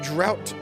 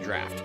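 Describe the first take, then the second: First: The vowel sounds like the one in 'out'. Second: The vowel sounds like the one in 'laughed'. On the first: The speaker calls it wrong. "I always pronounced it as drought as a kid" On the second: The speaker calls it right. "I think it's technically sp- pronounced draft"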